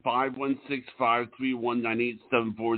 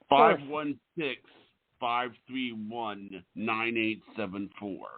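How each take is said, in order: First: The number is rattled off quickly. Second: The number is said slowly and clearly.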